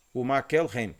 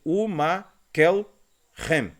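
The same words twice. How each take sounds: First: Said in the usual way. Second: "Makelhem" drawn out slowly, syllable by syllable, with no stressed "le"; teacher's very slow model of "Makelhem"; syllable-by-syllable demonstration. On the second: Shown as a demonstration. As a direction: sound out "Makelhem" slowly in separate pieces, Ma-kel-hem. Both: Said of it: "a gente vai dizer".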